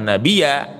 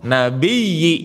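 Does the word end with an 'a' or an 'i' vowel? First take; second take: a; i. First: The word ends with an 'a' vowel. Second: The word ends with an 'i' vowel. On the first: The speaker calls it wrong. "jangan nabi ya" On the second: The speaker calls it right. "macana kudu kasroh eta teh nabiyyi"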